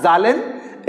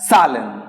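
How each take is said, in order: First: "Zahlen" begun with a buzzing z; z sound. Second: "Salen" begun with s, not z; s sound. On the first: Teacher warns students off it, "Zahlen" with voiced z. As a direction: say "Zahlen" with an English z. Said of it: "it is not Zahlen". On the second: Teacher gives the correct plural, "Salen" with an s. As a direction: say "Salen" slowly and lower, with an s. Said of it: "pronounced as". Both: Shown as a demonstration.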